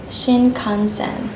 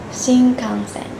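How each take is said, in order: First: The middle nasal is a clear tongue n sound. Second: The middle nasal sounds more like an mm sound. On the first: The speaker calls it wrong. "we don't pronounce this word like Shinkansen" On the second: The speaker calls it right. "The right pronunciation is Shinkansen"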